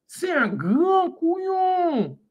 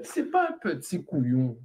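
First: Grand stretched very slow and much higher; drawn-out punchline. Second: Said in the usual way. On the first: Shown as a demonstration. Streamer topping the joke for chat, stretched high punchline.

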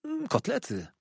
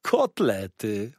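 First: Small, hesitant confirmation; lightly voiced shy young guest; timid boy. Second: Drawn-out waiter's exclamation; slow, greedy delight; relishing exclamation. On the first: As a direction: confirm meekly after a little hum. Boy quietly confirms the dish. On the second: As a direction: savour the word slowly and with force. Waiter exclaims over the food. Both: A narrator's reading.

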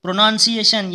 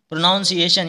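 First: "प्रोनाउंसिएशन" said as pro-nun-see-ay-shun; short vowel in the middle of "प्रोनाउंसिएशन", no "ow"; "nun" not "noun". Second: "प्रोनाउंसिएशन" said as pro-noun-see-ay-shun; misread with "noun". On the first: Teacher giving the correct form, "प्रोनाउंसिएशन" with nun in it. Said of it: "N यू N होता है". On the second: Teacher warning students off the wrong spelling, "प्रोनाउंसिएशन" with noun in it. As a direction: put an "ow" sound into "प्रोनाउंसिएशन", like noun. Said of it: "इसमें नाउन का कोई मतलब नहीं". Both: Shown as a demonstration.

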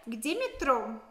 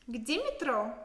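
No difference in how they are said.

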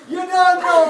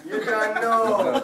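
First: Loud, high punchline shout; shouted catchphrase. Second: Slow replay. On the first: Acted. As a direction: belt it out. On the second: Retold or imitated. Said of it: "in one sound clip".

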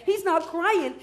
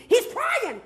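First: Said in the usual way. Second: CRYING cried out much higher; "crying" pitched up as an outcry; stress on CRYING. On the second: Shown as a demonstration. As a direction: lift "crying" into a high call. Contrast of two types of crying.

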